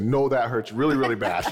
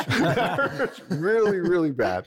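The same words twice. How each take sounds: First: Said in the usual way. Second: Slow, high, laughing through the words; laughing repeat. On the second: Retold or imitated. Guest repeating his pain line to the host, laughing slowly and high. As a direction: laugh at your own pain as you say it again.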